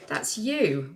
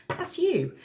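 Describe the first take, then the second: First: Said in the usual way. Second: Much higher, delighted pointing; excited squeak. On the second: Real, not acted. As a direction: squeal it at the card. Points out the Emperor card.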